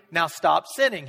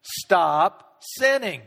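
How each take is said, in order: First: Said in the usual way. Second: "Stop sinning" drawn out slowly and firmly; slow firm command. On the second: Acted. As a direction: lay down "Stop sinning" slowly, each word weighed. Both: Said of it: "Jesus said".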